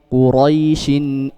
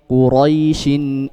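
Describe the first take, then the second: First: The vowel is short, running into the next word. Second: The vowel is short, running into the next word.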